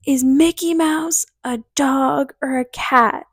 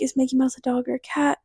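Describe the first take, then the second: First: Slow, drawn-out imitation of a yell; mock scream. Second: Quick, softer inner voice; thinking to herself. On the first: Friend's dad questioning her as she comes to, mock scream. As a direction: stretch it out as a held-back mock holler. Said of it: "and he screams". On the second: Retold or imitated. Puzzling over the dad's question in her head, thinking to herself. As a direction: run it over under your breath, quickly. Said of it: "So I'm thinking".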